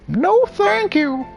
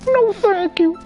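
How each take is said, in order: First: It is said in a gruff voice. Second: It is said in a girl's voice.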